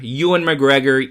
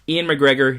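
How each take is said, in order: First: The first name sounds like Ewan. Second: The first name sounds like Ian. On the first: The speaker calls it right. "Ewan is probably the proper pronunciation" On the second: The speaker calls it wrong. "I know it's the wrong pronunciation"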